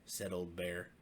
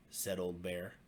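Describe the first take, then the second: No difference in how they are said.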